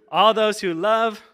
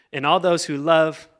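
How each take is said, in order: First: Higher, louder, leading the crowd on; rousing cue. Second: Said in the usual way. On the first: Shown as a demonstration. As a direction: lift it loud and high, inviting a response. Re-cues an unresponsive congregation.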